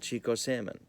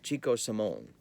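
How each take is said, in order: First: The surname ends with a 'mun' sound. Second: The surname ends with a 'moan' sound. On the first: The speaker calls it wrong. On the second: The speaker calls it right.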